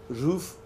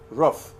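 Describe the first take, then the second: First: It is said with the standard pronunciation. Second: It is said with the eastern regional pronunciation. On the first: "the way exactly I pronounce it" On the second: "some people from the east they pronounce it roof"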